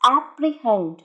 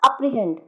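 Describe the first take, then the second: First: The first vowel is an 'eh' sound. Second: The first vowel is a short 'uh' sound. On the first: The speaker calls it right. "It's एप्रीहेंड" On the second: The speaker calls it wrong. "It's not अप्रीहेंड"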